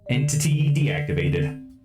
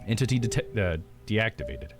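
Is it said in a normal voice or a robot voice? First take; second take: robot; normal. First: It is said in a pitchy robot voice. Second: It is said in a normal voice.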